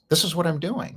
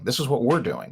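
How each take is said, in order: First: Said in the usual way. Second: We're pushed up, clear of the rest; weight on we're, the others downplayed; stress on we're. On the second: Shown as a demonstration. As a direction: lean on we're, not I'm. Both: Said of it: "not just me".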